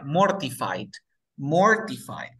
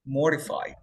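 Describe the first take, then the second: First: MORTIFIED with a clear hard T; T pronunciada. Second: MORTIFIED with no T, like "morified"; T muda. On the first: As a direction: sound out the T in MORTIFIED. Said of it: "la siguiente se pronuncia". (MORTIFIED con la T marcada) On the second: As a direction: drop the T after R in MORTIFIED. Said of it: "¿Cómo sería aplicando la regla?". (MORTIFIED sin pronunciar la T) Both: Shown as a demonstration.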